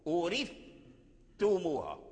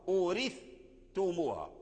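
No difference in how they are said.

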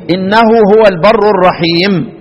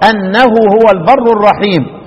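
First: The first word begins with an 'i' vowel. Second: The first word begins with an 'a' vowel. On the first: It starts a new statement. "والباقون يقرؤون إيه؟" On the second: It gives the reason for the prayer. "يبقى الإمام نافع والإمام الكسائي آني أنه هو البر"

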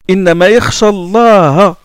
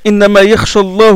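First: Allah ends with the vowel a. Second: Allah ends with the vowel u. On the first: God is the one who is feared. The speaker calls it right. "Il faut lire innama yakhsha Allah. C'est-à-dire qu'Allah est un complément antéposé" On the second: God is the one who fears. The speaker calls it wrong. "on risque de faire d'Allah le sujet du verbe craindre"

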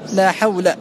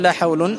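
First: The word ends with a short -a ending. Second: The word ends with the nunated -un ending. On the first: The speaker calls it right. "بل تقول" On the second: The speaker calls it wrong. "لا يجوز أن تقول"

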